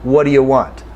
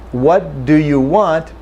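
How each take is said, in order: First: "What do you want?" with "do you" reduced to "d'ya"; casual reduced version; reduced form. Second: "What do you want?" with every sound said fully; slow textbook version; full careful form. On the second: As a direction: say "do" and "you" clearly and separately. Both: Shown as a demonstration.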